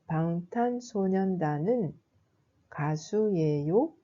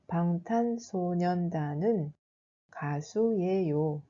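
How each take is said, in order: First: The voice rises at the end of the sentence. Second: The voice falls at the end of the sentence. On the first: "je pose la question" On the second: "C'est une phrase déclarative"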